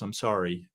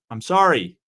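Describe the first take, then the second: First: Said in the usual way. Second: Louder apology. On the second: Real, not acted.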